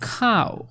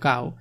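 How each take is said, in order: First: The first consonant is strongly aspirated, with a puff. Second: The first consonant is plain, without a puff. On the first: It sounds like a foreigner's English. "বিদেশি এসে বলতেছে খাও" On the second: This is how local speakers usually say it. "যেটা আমরা সবসময় বলতো কাউ"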